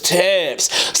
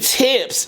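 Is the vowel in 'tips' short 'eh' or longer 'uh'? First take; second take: longer uh; short eh. First: The vowel is a longer, darker 'uh'-like sound. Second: The vowel is a short, bright 'eh'-like sound. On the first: "the vowel was a little bit more uh, longer instead of eh" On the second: "It wasn't tips"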